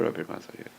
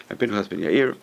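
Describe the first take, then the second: First: Voiceless, reverent whisper of "Rabbi Pinchas ben Yair"; whispered name. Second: Said in the usual way. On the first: Shown as a demonstration. Teacher whispering the sage's name in awe. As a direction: breathe the name in a hush.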